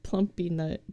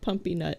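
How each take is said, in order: First: The first word is said with an L sound. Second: The first word is said without an L sound. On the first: The speaker calls it right. "it's plumpy nut" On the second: The speaker calls it wrong. "It's not pumpy nut"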